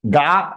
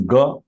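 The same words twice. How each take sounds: First: "ga" with a drawn-out "aa"; wrong long vowel. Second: "ga" clipped to a short "guh"; short vowel. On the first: Teacher showing the wrong pronunciation, "ga" as "gaa". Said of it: "is a wrong pronunciation". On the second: Teacher correcting it, "ga" as brief "guh". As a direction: keep "ga" short, lips unrounded. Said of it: "It is ga". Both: Shown as a demonstration.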